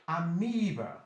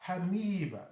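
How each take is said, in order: The two takes are said the same way.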